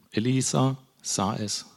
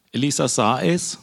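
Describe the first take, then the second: First: Slow "Elisa ... sah es", words set apart; slow, deliberate repeat. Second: ES raised at the end of "sah es"; firm "Elisa sah es", lifting on ES; emphatic statement. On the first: Preacher drives the key phrase home, slow and deliberate. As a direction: let "Elisa sah es" sink in slowly. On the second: Preacher underlines the key condition to listeners, emphatic. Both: Shown as a demonstration.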